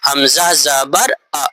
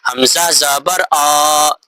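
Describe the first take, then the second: First: The final vowel is said short and quick. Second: The final vowel is drawn out slowly. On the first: The speaker calls it right. "बल्कि कैसे पढ़ना है" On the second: The speaker calls it wrong. "अगर कोई इस तरह ना पढ़े, ऐसे पढ़े"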